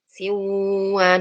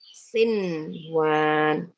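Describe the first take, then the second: First: The n sound is merged away, not heard. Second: The n sound is clearly pronounced. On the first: The speaker calls it wrong. "nah nggak boleh baca gitu" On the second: The speaker calls it right. "harus jelas nun sukunnya"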